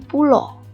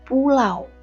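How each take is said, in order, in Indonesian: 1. Kata ini berakhir dengan vokal tunggal o. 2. Kata ini berakhir dengan diftong au. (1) "menggunakan vokal o" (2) "harusnya menggunakan diftong au"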